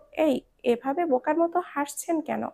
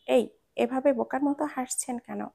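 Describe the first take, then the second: First: An angry wife scolds her laughing husband. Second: Said in the usual way. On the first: A narrator's reading. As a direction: snap at him for laughing like a fool. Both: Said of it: "Nowrin রেগে তাকিয়ে বলল".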